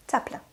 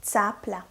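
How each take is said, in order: First: Țapla at quick natural speed; native-speaker reading. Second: Țapla said slowly, both syllables drawn out; slow demonstration. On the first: Teacher models Țapla for learners, natural native pace. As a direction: say Țapla compactly, as a native would. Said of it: "read the word as a native speaker". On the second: Teacher reads Țapla for beginners to imitate, slowly. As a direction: stretch out Țapla for learners. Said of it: "I will read the word slowly". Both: Shown as a demonstration.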